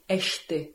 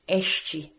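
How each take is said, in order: First: It is said with a European Portuguese pronunciation. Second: It is said with a Rio Portuguese pronunciation. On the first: "the Portugal pronunciation would be este" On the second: "The Rio pronunciation would be este"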